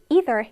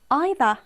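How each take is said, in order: First: It is said in a non-British, likely American, accent. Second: It is said in a British accent.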